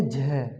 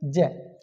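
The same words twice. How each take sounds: First: जय with a breathy ज, like झय, with more air; teacher models the aspirated form; aspirated demo. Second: जय said slowly with a plain, short ज; teacher models the plain जय first; unaspirated demo. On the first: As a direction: let air rush out on the ज of जय. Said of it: "हवा भी ज़्यादा निकलेगी". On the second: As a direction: stretch जय out with no puff of air. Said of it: "लेकिन आप इसे बोलोगे". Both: Shown as a demonstration.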